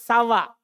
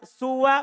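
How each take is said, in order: First: The first vowel is a. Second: The first vowel is u. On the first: "bisa dibaca sawa" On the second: "bisa dibaca suwa"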